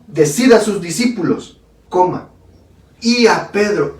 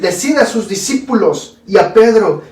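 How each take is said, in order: First: There is a clear pause before "y a Pedro." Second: It is read quickly without a pause before "y a Pedro."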